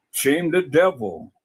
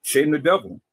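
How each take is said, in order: First: "Shame the devil" stretched out slowly; slow emphatic repeat. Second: Said in the usual way. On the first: Real, not acted. Man repeats the saying to his critics, slowly and emphatically. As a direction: draw out each word for weight.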